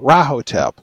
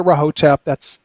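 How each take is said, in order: First: The stress is on the first syllable. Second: The stress is on a later syllable. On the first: "I've always gone with the accent on the first syllable" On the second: "if you want to say Rahotep, that's okay too"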